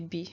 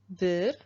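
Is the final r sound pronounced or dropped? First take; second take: dropped; pronounced. First: The final r sound is dropped. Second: The final r sound is pronounced. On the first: "in speaking, sometimes you just say bi. You don't really pronounce the re" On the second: "Bir is one"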